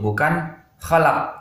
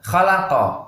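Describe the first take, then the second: First: The final q stops flat without a bounce. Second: The final q is released with a bounce. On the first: The speaker calls it wrong. "Itu salah" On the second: The speaker calls it right. "Kita harus membaca dengan mantul ya. Khalaqa. Nah, seperti itu"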